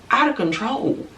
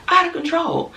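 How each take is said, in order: First: Said in the usual way. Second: Squealed high, pitched way up; exaggerated high exclamation; high exclaim. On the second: Shown as a demonstration.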